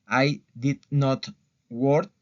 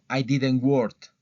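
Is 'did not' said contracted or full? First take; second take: full; contracted. First: The words did and not are said separately. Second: Did not is contracted and said faster. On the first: It sounds more formal. "forma larga" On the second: It sounds more everyday and casual. "cuando utilizo la forma corta, hablo más rápido"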